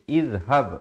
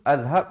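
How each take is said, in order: First: The word begins with an i vowel. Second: The word begins with an a vowel. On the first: The speaker calls it right. "kita baca izhab" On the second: The speaker calls it wrong. "ataupun azhab"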